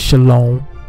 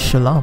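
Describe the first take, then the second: First: A vowel is heard between sh and l. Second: No vowel is heard between sh and l. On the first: The speaker calls it wrong. "that's actually with a vowel, which is incorrect" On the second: The speaker calls it right. "it doesn't need any vowels"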